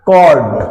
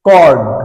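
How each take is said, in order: First: The word begins with a k sound. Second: The same.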